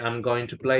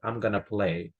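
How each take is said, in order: First: Going to is said in full, unreduced. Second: Going to is reduced to gonna. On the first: Standard, formal usage. "Instead of saying" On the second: Casual, informal speech. "informal contraction for going to"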